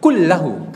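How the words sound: The phrase begins with a back k sound. This is the standard Quraysh Arabic form.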